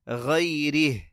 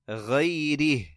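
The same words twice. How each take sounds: Both takes have the same delivery.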